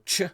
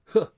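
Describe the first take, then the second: First: The first sound is a hard 'ch'. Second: The first sound is a breathy 'h'. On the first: The speaker calls it wrong. "most people are pronouncing it, you know, ch" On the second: The speaker calls it right. "but it's huh"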